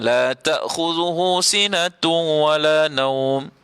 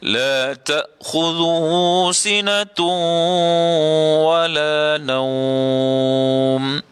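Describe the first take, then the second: First: The n merges into wala without nasal hum. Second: The n merges into wala with held nasal hum. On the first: The speaker calls it wrong. "dia masuk idgham tapi dia tak dengung" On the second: The speaker calls it right. "dengung dekat situ... Mesti cukup dua harakat"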